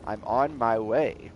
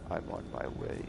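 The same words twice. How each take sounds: First: Said in the usual way. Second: Whispered creepy yandere; overacted anime dub. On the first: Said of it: "someone's gonna soundbite that now". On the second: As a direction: hush it like a lovesick stalker. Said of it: "like, yondeer".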